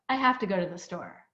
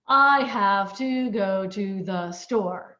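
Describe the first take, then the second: First: The words are linked in one continuous breath. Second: Each word is said separately, robotically.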